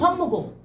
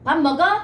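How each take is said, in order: First: It is said as a plain statement. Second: It is asked as a question.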